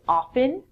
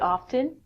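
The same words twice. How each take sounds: First: The T sound is silent. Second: The T sound is pronounced. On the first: "in North America, people would say often" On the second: "I actually pronounce the T sound in it"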